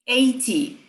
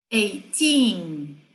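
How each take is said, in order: First: "eighty" short, strong first syllable, falling -ty; stress on EIGH. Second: "eighteen" with long, stressed second syllable; stress on TEEN. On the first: Teacher contrasting side by side, stress on EIGH. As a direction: hit the EIGH of "eighty", drop the -ty. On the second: Teacher contrasting side by side, stress on TEEN. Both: Shown as a demonstration. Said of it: "lado a lado".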